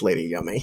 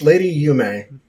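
First: The name sounds like 'yummy'. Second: The name sounds like 'yoo-may'. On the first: This is a joking nickname for the character. "But it's Lady Yummy" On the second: This is the proper pronunciation of the name. "it's Lady Yume"

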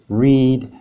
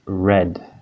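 First: The vowel is long, like in 'need'. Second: The vowel is short, like in 'bed'. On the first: The action happens in the present. "spelled R-E-A-D" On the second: The action happened in the past. "this is the past tense form of read"

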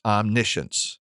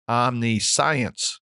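First: The word is pronounced the way it's normally spoken. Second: The word is pronounced the way it looks in print. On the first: The speaker calls it right. "But it is actually pronounced" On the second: The speaker calls it wrong. "If you just saw this word on paper or on a screen, you may be tempted to pronounce it"

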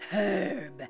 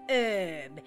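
First: The word starts with a pronounced H. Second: The word starts with a silent H.

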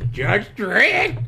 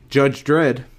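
First: It is said in a squawky parrot voice. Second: It is said in his normal voice.

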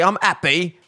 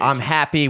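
First: The h sound in happy is dropped. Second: The h sound in happy is pronounced.

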